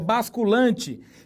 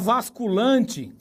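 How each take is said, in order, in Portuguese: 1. A palavra começa com som de B. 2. A palavra começa com som de V. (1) "é basculante" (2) "Você não fala vasculante"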